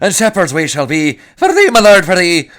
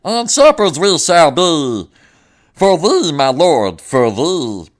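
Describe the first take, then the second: First: It is said in his own voice. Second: It is said in a Meatwad voice.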